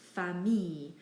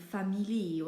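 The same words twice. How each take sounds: First: The ending is said with an E sound, no L. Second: The ending is said with an L sound. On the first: The speaker calls it right. "But really it's just famille" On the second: The speaker calls it wrong. "they try and say it as um, famille or something like that"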